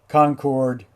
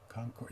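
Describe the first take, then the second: First: The second syllable sounds like full 'chord'. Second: The second syllable is reduced, not 'chord'. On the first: The speaker calls it wrong. "oh, excuse me" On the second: The speaker calls it right. "The chord isn't, it's, anyway, Concord"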